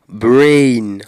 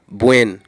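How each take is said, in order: First: The vowel is a long, gliding diphthong. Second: The vowel is short, with no glide. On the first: The speaker calls it right. "Prononciation c'est brain, brain. Là, moi gen yon son voyelle long, diphtongue" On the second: The speaker calls it wrong. "Yo toujou prononse l kom bwen"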